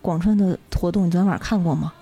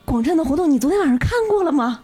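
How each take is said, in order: First: It sounds bored and disappointed. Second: It sounds deeply moved and enthusiastic.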